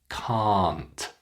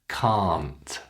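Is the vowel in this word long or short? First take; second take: long; long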